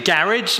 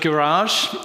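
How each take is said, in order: First: It is said with a British pronunciation. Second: It is said with an American pronunciation. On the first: "I also say garage" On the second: "instead of garage"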